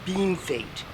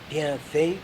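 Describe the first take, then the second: First: The name is said like English beam fate. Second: The name is said with French sounds. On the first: This is how the town name is said. "the accepted pronunciation is beam fate" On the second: The phrase means well done. "bien fait means well done in French"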